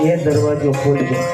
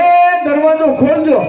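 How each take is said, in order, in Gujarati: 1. તે ધીમેથી, મનમાં બોલાય છે. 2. તે મોટેથી બૂમ પાડીને બોલાય છે.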